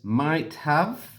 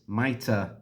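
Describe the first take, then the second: First: Both words are said fully and separately. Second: The 'have' becomes a weak 'uh' sound.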